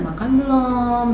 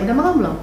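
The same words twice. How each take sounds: First: It is asked in a sweet, cutesy tone. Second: It is asked in a plain, matter-of-fact tone. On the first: The asker is being affectionate and playful. The speaker calls it right. "dengan logat yang manja" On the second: The asker is just checking, like routine questioning. The speaker calls it wrong. "Kayak nada begitu dia nggak suka"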